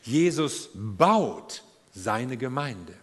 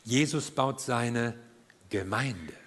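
First: The stress is on baut. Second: The stress is on Gemeinde.

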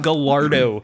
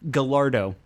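First: The double L is said like an L. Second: The double L is said like a Y. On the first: The speaker calls it right. "in Italia, they don't do the yeah for double L's" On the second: The speaker calls it wrong. "That's what I thought it was pronounced as"

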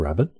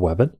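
First: The word begins with a normal R sound. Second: The word begins with a W sound. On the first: "instead of rabbit" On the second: "pronounce it wabbit"

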